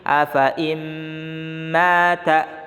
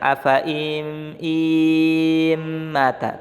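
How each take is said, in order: First: The vowel is short and runs into the m. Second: The vowel before the m is drawn out long. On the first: The speaker calls it right. "tapi afa im mata, masuk ke mim" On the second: The speaker calls it wrong. "enggak boleh kamu baca panjang"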